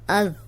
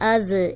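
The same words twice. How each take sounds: First: The final consonant is held still without bouncing. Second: The final consonant bounces with a slight echo. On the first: The speaker calls it right. "अब ये कंट्रोल करना है" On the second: The speaker calls it wrong. "इसको ऐसे नहीं पढ़ना ... तो ये गलत हो जाएगा"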